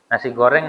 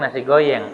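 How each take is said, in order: First: The second word has a clear R sound. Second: The R is replaced by a Y-like sound. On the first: The speaker calls it right. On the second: The speaker calls it wrong.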